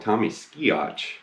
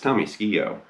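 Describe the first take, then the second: First: The surname ends with a 'ch' sound. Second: The surname ends without a 'ch' sound. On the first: The speaker calls it wrong. "I used to call him Tommy Skiotch" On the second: The speaker calls it right. "but it's Tommy Skio"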